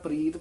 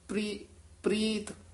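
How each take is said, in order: First: The r is spoken as a separate full sound. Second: The r is clustered tightly with the p. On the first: The speaker calls it wrong. "ਰਾਰਾ ਬੋਲਾਂਗੇ ਤਾਂ ਪ੍ਰੀਤ ਬੋਲੂਗਾ" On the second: The speaker calls it right. "ਜੇ ਹੇਠਾਂ ਰਾਰਾ ਬੋਲਾਂਗੇ ਪ੍ਰੀਤ, ਇਸ ਤਰ੍ਹਾਂ ਬੋਲਣਾ"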